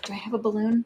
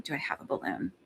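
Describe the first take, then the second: First: Said in the usual way. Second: Muttered under her breath, unvoiced; whispered aside. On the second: Real, not acted. Searching the room for a balloon, whispering to herself. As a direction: whisper it to yourself while searching.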